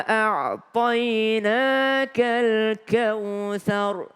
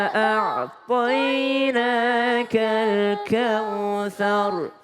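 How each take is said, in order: No difference in how they are said.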